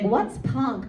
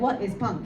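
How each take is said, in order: First: It sounds coy, flirtatious, playing dumb. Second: It sounds like a sincere, curious question.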